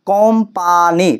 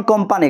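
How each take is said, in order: First: "কোম্পানি" stretched slowly into three separate syllables. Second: Said in the usual way. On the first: Shown as a demonstration. Teacher showing students the three syllables, "কোম্পানি" said slowly in parts. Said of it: "তিনটি syllable". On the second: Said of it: "তিনটি syllable রয়েছে".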